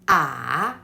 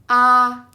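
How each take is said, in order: First: The pitch dips and then turns up. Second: The pitch stays level and smooth. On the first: "there is a turn in the third tone" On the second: "It's flat and smooth"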